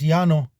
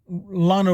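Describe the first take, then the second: First: The double L is said as a Y sound. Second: The double L is said as an L sound. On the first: This is the Spanish way. "as we say it in Spanish" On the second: This is the local English name. "here in the English speaking Texas world"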